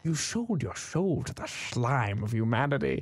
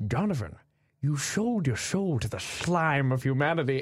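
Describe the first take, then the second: First: Slow Scottish Sean Connery voice, every S said as "sh"; "slime" as "shlime", drawn out and grave; Sean Connery impression. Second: Slow Scottish Sean Connery voice, every S said as "sh"; "sold" and "soul" as "shold" and "shoul", slow and grave; Sean Connery impression. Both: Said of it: "he says everything with an S H".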